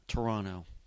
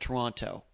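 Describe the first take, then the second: First: It is said the Canadian way, like Tranna. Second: It is said the American way, all syllables clear.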